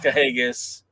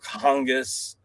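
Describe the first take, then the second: First: The name is said without an N sound. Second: The name is said with an N sound. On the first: The speaker calls it right. "It's Cahagas" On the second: The speaker calls it wrong. "I don't put the N in there anymore. I don't call him Kahungus"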